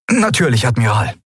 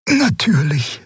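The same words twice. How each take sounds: First: Higher-pitched, prompt acknowledgement; dutiful officer. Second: High, whispered character voice; Xea's whispery voice. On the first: First officer acknowledging the admiral's order, dutiful. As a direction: answer promptly, voice falling. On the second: Xea agreeing to leave the two alone, high whisper. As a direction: whisper it in a raised pitch. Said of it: "sagte Xea". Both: A narrator's reading.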